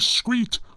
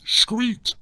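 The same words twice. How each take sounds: First: The word begins with a plain s sound. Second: The word begins with an sh sound. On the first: "street wouldn't only be screet" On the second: "you should pronounce the S as a sh"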